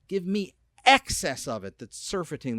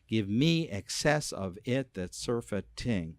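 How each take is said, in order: First: It runs on in an uneven, flowing rhythm. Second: It is spoken in an even, regular beat. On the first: The speaker calls it right. "We don't say it that way. We say" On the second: The speaker calls it wrong. "If it was regular, it would be"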